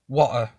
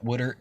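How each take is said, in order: First: It is said with a British accent. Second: It is said with an American accent. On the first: The speaker calls it right. "British English dictionary ... You had to say water" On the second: The speaker calls it wrong. "not water"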